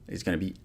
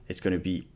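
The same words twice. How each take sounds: The two takes are said the same way.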